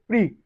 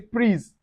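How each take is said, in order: First: The final consonant sound is silent. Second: A final consonant sound is pronounced. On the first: The speaker calls it right. "We say prix" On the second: The speaker calls it wrong. "we don't say prise"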